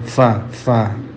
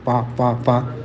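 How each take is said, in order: First: It starts with a breathy f sound. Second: It starts with a stopped p sound. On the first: The speaker calls it right. "mestinya fa fa" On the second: The speaker calls it wrong. "banyak orang mengucapkan fa kurang hams"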